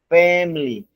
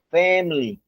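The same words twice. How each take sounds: Both takes have the same delivery.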